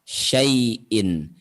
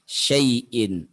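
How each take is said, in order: First: The vowel is said short and soft. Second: The same.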